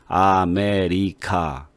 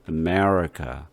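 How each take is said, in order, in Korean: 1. 각 음절을 모음을 또박또박 살려서 따로 발음해요. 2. 음절이 서로 이어지고 강세 주변의 모음은 약하게 발음해요. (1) "아메리카 이거는 한국식이에요. 또박또박 단모음으로다가" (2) "미국 사람들은 이걸 하나의 덩어리로다가 소리를 하나로 만들었기 때문에"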